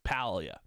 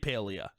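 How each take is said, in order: First: The first syllable sounds like 'pal'. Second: The first syllable sounds like 'pail'. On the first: The speaker calls it right. "It's Palia" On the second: The speaker calls it wrong. "Do not say Palia. ... I'm gonna give you a pail"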